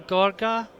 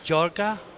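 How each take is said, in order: First: The name starts with a hard G sound. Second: The name starts with a soft G sound. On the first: "I do hope I'm pronouncing this correctly" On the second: "Maybe it's Jorga, Most of the Italian G's are soft"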